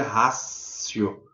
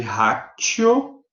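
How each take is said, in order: First: Ratio said slowly, the T softened to an S sound like racio; Latin pronunciation. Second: Ratio read slowly, letter by letter, with a hard T as spelled; ratio as written. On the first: Professor teaching students the Latin way: ratio said like racio. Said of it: "mas pronuncia ratio". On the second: Professor showing law students how ratio is written: ratio with a hard T. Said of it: "Escreve ratio, mas pronuncia ratio". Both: Shown as a demonstration.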